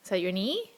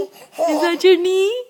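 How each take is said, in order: First: Said in the usual way. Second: Loud, high, slow delighted question. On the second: Real, not acted. Same question, rising excitement.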